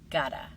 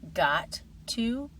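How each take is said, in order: First: The words are blended into one short form. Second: Both words are pronounced fully and separately.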